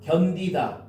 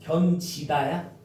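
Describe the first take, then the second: First: The second syllable begins with a d sound. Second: The second syllable begins with a j sound. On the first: The speaker calls it right. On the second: The speaker calls it wrong.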